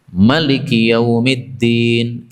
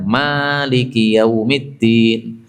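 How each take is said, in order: First: The first vowel of maliki is short. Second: The first vowel of maliki is long. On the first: This follows one recognized reading tradition. "qiraah Nafi ini Pak. Maliki pendek ya" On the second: This follows another recognized reading tradition. "Kalau Asim kan"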